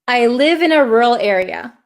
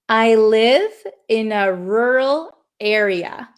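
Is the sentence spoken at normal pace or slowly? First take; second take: normal; slowly. First: It is spoken at a normal pace. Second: It is spoken a little more slowly.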